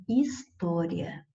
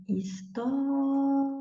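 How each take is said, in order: First: Said in the usual way. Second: HISTÓRIA with TÓ held very long and high; calling to someone distant. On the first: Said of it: "na palavra". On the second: Shown as a demonstration. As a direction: call out HISTÓRIA, stretching the TÓ. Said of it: "eu chamo a palavra como se fosse alguém que está distante". (HISTÓRIA como quem chama de longe, TÓ bem esticado)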